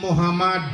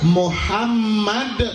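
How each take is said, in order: First: The middle m is short and single. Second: The middle m is held long and doubled. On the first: The speaker calls it wrong. "mim hilang tasydid jadi" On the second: The speaker calls it right. "dengan tasydid menjadi hamma"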